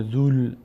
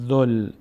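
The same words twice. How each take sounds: First: "ذول" with a long oo before the l; wrong long vowel. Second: "ذل" with short u straight into the l; short vowel. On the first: Teacher shows the wrong reading, long oo in "ذول". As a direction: stretch the u in "ذول" as if waw were read. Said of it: "دیگه نمیشه ذول". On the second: Teacher shows damma joining lam, short-vowelled "ذل". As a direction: join "ذل" tightly, vowel not lengthened. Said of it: "ضمه زال میچسبه به لام". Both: Shown as a demonstration.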